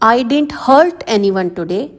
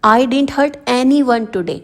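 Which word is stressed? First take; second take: hurt; anyone. First: The word hurt carries the main stress. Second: The word anyone carries the main stress. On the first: "अब इसमें hurt पर pressure डाला गया है।" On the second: "अब इसमें एनी वन पर pressure डाला गया है।"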